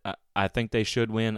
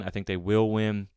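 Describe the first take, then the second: First: Should leaned on, a little longer; should weighted over the rest; stress on should. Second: Will pressed firmly; will gets the weight, rest plain; stress on will. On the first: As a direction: hit the word should, then ease off. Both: Real, not acted. Contrasting should with will.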